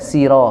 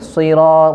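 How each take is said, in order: First: The s is a plain, light s. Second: The s is a heavy, emphatic s. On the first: The speaker calls it wrong. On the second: The speaker calls it right.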